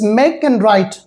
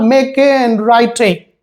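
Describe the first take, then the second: First: The final e is silent in both words. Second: A final vowel sound is added to both words. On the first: The speaker calls it right. "the pronunciation of the two words is make and write" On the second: The speaker calls it wrong. "not make and write"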